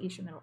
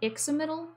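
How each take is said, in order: First: The second consonant is said as 'sh'. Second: The second consonant is said as 'ks'. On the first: This follows Portuguese and Nahuatl habits. "the Portuguese and Nahuatl influence in me wants to pronounce it Ishamiddle" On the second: This follows English-speaker habits. "It's probably Ixamiddle, based on how English speakers do things"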